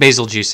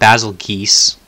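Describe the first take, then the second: First: The name ends with a 'juice' sound. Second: The name ends with a 'geese' sound. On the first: The speaker calls it right. "I think basil juice actually sounds appropriate" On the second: The speaker calls it wrong. "It's definitely not basil geese, as some people are saying"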